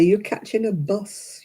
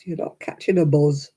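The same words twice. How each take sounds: First: Bus with a clear s sound, as the ex-husband says it; standard bus. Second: "buzz" with a voiced z, Oldham style. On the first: Retold or imitated. Ex-husband correcting her, standard "bus". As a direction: say "bus" with a hissed s. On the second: Ex-husband mocking her Oldham "buzz". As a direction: say "buzz" buzzing the z. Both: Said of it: "He used to say".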